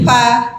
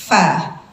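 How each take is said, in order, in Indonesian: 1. Bunyi itu dibuat dengan kedua bibir yang dirapatkan. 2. Bunyi itu dibuat dengan bibir bawah dan gigi. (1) "bukan pertemuan dua bibir" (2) "bibir bawah dengan gigi seri atas"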